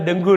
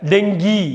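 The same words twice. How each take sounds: First: "டெங்கு" ending in "oo"; wrong pronunciation. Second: "டெங்கி" ending in "ee"; correct pronunciation. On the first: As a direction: say "டெங்கு" as "deng-gu". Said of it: "டெங்கு இல்ல". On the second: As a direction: say "டெங்கி" as "deng-gee", clearly. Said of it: "டெங்கு இல்ல, டெங்கி". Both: Shown as a demonstration.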